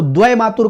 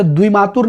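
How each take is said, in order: First: द्वय मातुर starting dvai; correct dvai form. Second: द्विमातुर starting dvi, short i; incorrect short-i form. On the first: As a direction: open ai vowel in द्वय मातुर. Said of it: "द्वय मातुर कहा जाता है". (द्वय मातुर में ऐ की ध्वनि) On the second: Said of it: "जैसे द्विमातुर नहीं". (द्विमातुर में छोटी इ) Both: Shown as a demonstration.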